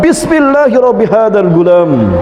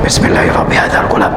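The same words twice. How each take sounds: First: It is said very loudly. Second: It is mumbled very quietly. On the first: Everyone can hear the condition spoken. The speaker calls it right. "dengan sangat lantang" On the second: Nobody else can hear the condition spoken. The speaker calls it wrong. "dia hanya bergumam saja. Hanya dia yang mendengar"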